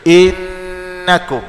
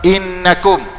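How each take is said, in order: First: The nasal n sound is held for longer. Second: The nasal n sound is held only briefly. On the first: The speaker calls it right. "nak dua harakat gunah" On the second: The speaker calls it wrong. "kalau satu harakat"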